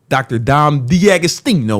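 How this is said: It is said in a put-on Italian accent.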